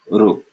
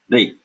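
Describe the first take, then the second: First: An r sound followed by a u-like vowel. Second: An r sound followed by an e-like vowel. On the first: This is the southern Indian and Gujarati pronunciation. "in the south and in Gujarat, they will pronounce this ru" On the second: This is the northern Indian pronunciation. "Ubiquitously throughout northern India, this is pronounced like the Hindi R followed by E matra"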